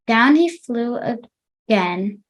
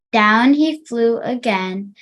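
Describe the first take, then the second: First: Slower reading. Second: Said in the usual way. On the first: Shown as a demonstration. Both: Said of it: "try to read slower".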